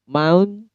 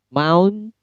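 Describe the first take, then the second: No difference in how they are said.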